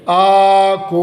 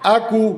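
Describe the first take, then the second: First: The vowels are stretched long. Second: The vowels are kept short. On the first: The speaker calls it wrong. "ये ज़बर और पेश को खींच के नहीं पढ़ेंगे, आकू ऐसे नहीं" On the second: The speaker calls it right. "आकू मुख्तसर पढ़ेंगे"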